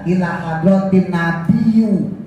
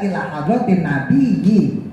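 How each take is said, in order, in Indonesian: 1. Kata terakhir berakhir dengan vokal 'u'. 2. Kata terakhir berakhir dengan vokal 'i'. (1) "nggak boleh kita baca" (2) "Harus dibaca"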